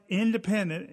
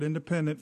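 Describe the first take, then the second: First: "independent" set apart, pitched higher; stress on independent. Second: Said in the usual way. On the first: Real, not acted. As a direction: lean firmly on the word "independent". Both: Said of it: "and I stress the word independent".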